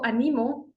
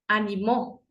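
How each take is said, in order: First: The stress is on the second syllable. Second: The stress is on the last syllable. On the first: I encourage someone now. "yo animo a mis estudiantes" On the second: Someone encouraged others in the past. "en tiempo pasado"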